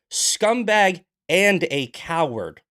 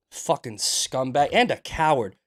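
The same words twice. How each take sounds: First: Loud, higher, slow spat insult. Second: Angry insult. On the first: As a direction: drag out each word in contempt. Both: Real, not acted. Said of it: "I'm heated today".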